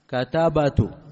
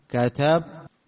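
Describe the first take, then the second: First: A vowel follows the b before the final t. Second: The b is silent before the final t. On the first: It keeps the underlying vowel, giving four voweled letters in a row. The speaker calls it wrong. "على قول أولئك مفروض أن ينطقوا بها ماذا؟" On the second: The vowel is dropped to avoid four voweled letters in a row. The speaker calls it right. "نجعلها ماذا؟"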